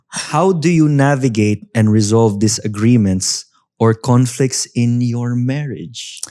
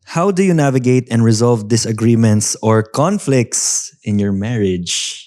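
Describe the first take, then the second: First: It is read slowly and carefully. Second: It is read at a normal speed.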